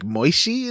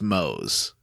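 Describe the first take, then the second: First: The name is said with two syllables, like Moishi. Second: The name is said with one syllable, like Mose. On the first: "pronounced as like Moishi" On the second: "I think this guy's just Mose"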